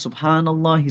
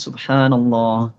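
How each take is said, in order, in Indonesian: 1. Diucapkan dengan cepat dan tergesa-gesa. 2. Diucapkan dengan pelan dan tenang. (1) "dengan tempo yang lebih cepat" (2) "dengan tempo yang tenang"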